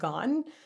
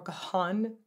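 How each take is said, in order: First: The name sounds like the word 'gone'. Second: The name does not sound like 'gone'. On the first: The speaker calls it right. "When he pronounces his name, it's Dave Gahan" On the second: The speaker calls it wrong. "not Gahan or Gahan"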